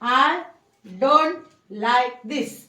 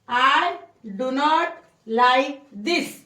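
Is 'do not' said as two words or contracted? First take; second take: contracted; two words. First: 'Do not' is contracted into one syllable. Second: 'Do not' is said as two full words. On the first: "डू नॉटचं संक्षिप्त रूप आहे डोंट" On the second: "I डू नॉट like this म्हणा"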